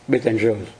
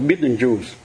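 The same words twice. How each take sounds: First: It is said with a French pronunciation. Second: It is said with an American pronunciation. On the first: "bên Pháp đó, hoặc là ngày xưa đó thì nó gọi là Betelgeuse" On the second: "Cái phim Mỹ á, phim ma quái gì nữa, gọi là Betelgeuse"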